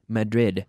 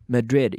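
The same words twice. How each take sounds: Both takes have the same delivery.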